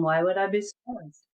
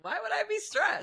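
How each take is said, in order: First: 1 dripping sarcasm. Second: High put-on sarcastic voice. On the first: Retold or imitated. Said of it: "With dripping sarcasm". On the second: With dripping sarcasm.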